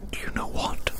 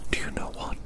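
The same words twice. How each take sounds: The two takes are said the same way.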